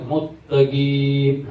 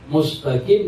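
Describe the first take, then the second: First: The s sound is merged into a double t. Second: The s sound is pronounced before the t. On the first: The speaker calls it wrong. "di bukan tempatnya idgham" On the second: The speaker calls it right. "mustaqim dibaca muttaqim"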